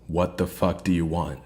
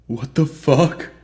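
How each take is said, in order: First: It is said in an angry, commanding tone. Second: It is said as a frightened whimper.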